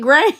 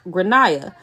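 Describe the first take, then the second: First: The name is said as one syllable. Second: The name is said with several syllables. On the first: This is how the child's family says it. The speaker calls it wrong. "So they really call this kid Grain" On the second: This is how it is said in Ireland. The speaker calls it right. "in Ireland, they typically pronounce it like Granaya"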